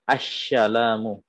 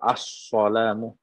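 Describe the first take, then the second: First: The s sound is pronounced as sh. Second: The s sound is a heavy emphatic s. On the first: "ada shin, ... ini tidak sah" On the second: "ada sod, ... ini tidak sah juga"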